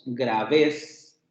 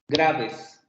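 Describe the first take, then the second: First: The stress is on the second syllable. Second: The stress is on the first syllable. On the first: The speaker calls it wrong. "no decimos graves" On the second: The speaker calls it right. "recae en la primera vocal"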